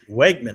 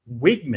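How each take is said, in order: First: The first syllable sounds like 'weg'. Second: The first syllable sounds like 'wig'. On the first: The speaker calls it wrong. "we've been saying Wegman" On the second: The speaker calls it right. "pronunciation, it's Wigman"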